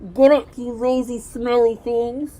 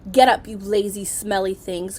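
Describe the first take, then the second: First: The voice sounds muffled, as if mouth covered. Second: The voice sounds clear and unmuffled.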